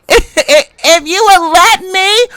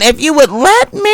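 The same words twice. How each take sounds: First: "if you would let me" high and drawn out slowly; mocking sing-song. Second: Said in the usual way. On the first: Real, not acted. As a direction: stretch it out high to mock her. Mocking after a laugh.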